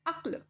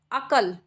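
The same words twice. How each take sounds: First: अक्ल with half क clustered; correct half k. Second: अकल with a full vowel after क; wrong full k. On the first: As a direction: clip अक्ल into one cluster. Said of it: "आधे कै की sound आ रही है". (आधे क के साथ अक्ल) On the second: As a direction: say अकल in two full syllables. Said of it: "पूरा कै लगा दिया तो ये बन जाएगा अकल". (अकल पूरे क के साथ) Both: Shown as a demonstration.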